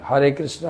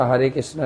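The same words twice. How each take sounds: No difference in how they are said.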